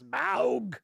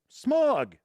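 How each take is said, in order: First: The name does not sound like 'smog'. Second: The name sounds just like the word 'smog'. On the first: The speaker calls it right. "not Smaug. It's Smaug" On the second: The speaker calls it wrong. "they called Smog Smog"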